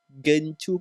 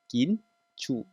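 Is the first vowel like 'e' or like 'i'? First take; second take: e; i. First: The first vowel sounds like 'e'. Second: The first vowel sounds like 'i'. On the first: The speaker calls it wrong. "Liza membeli gencu ke gen, gincu?" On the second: The speaker calls it right. "Ya dibunyi dengan huruf I"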